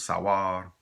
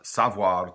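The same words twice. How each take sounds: First: The v sound is dropped, ending like war. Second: The v sound is clearly pronounced.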